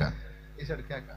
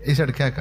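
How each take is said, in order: First: వేశాడు కేక dropped much softer and slowed right down; slow hushed repeat. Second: Said in the usual way. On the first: Shown as a demonstration. Preacher repeating to the congregation, softly and slowly. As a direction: let వేశాడు కేక fall away quietly and slowly.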